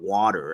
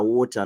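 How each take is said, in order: First: It is said in a local American accent. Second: It is said in a thick foreign accent. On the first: "not water" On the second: "My accent was thick. I was talking like this. I was calling water water"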